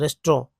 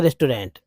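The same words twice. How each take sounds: First: "रेस्ट्रो" shortened to res-tro; variant pronunciation. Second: "रेस्टोरेंट" as res-to-rent, final t sounded; full pronunciation. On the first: Teacher showing what some people say, "रेस्ट्रो" as res-tro. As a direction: drop the final -ent, ending "रेस्ट्रो" on o. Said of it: "रेस्ट्रो बोलते हैं". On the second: Teacher correcting to the full word, "रेस्टोरेंट" as res-to-rent. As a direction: give all three syllables of "रेस्टोरेंट". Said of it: "लेकिन रेस्टोरेंट". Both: Shown as a demonstration.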